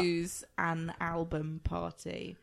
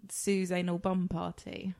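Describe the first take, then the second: First: "Sue's An Album Party", split as "An Album"; intended hashtag reading. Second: "Sue's anal bum party", split as "anal bum"; misread hashtag. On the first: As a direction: say "An" separately, then "Album" as one word. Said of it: "her album was called An Album". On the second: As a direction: run it as "anal" then "bum", slowly. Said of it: "people read it like that". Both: Shown as a demonstration.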